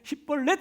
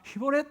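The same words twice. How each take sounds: First: The first consonant is said hard, not softly. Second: The first consonant is said softly. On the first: The speaker calls it wrong. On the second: The speaker calls it right.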